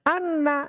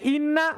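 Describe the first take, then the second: First: The word begins with an a vowel. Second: The word begins with an i vowel. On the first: "boleh anna" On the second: "Boleh inna"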